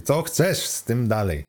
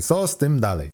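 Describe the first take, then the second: First: "chcesz" drawn out and leaned on; slow down and hit "chcesz"; stress on CHCESZ. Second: Said in the usual way. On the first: Acted. Computer rephrases the question for the student, stress on "chcesz". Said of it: "Spytam inaczej".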